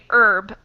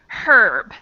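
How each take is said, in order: First: The word begins with no H sound. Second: The word begins with an audible H sound. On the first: This is the speaker's usual pronunciation. "if I were pronouncing in my normal life, I would say herb always" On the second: Other people pronounce it this way. "I have also heard people say herb. I find that difficult to say though"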